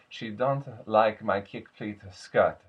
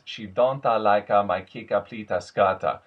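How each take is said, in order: First: Words end without an added vowel. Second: An extra ah vowel ends each word. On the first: The speaker calls it right. "more subtle" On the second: The speaker calls it wrong. "ah at the end of each word"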